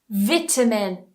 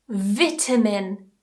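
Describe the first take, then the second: The two takes are said the same way.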